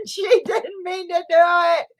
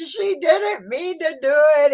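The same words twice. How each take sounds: First: Laughing, higher and squeaky. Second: Said in the usual way. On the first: Real, not acted. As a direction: laugh through the words. Laughing, exclaiming about Jess.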